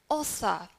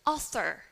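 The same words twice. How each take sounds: First: "author" ending in "uh", no R; British non-rhotic. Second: "author" ending in a clear "er"; American rhotic R. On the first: Teacher models author in British accent, no R. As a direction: drop the final R of "author". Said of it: "in British accent, we would say". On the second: Teacher models author in American English, R sounded. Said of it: "In American English". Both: Shown as a demonstration.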